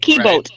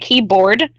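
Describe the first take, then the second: First: The word keyboard is pronounced in a distorted way. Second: The word keyboard is pronounced in the standard way. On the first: The speaker calls it wrong. "They can't pronounce it right" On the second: The speaker calls it right. "they never say keyboard"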